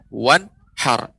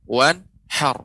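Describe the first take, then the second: Both takes have the same delivery.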